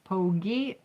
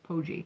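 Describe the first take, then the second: First: The middle consonant is a hard G sound. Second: The middle consonant is a soft J sound. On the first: "Make a big G if it's Pogi" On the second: "a J if it's Poji"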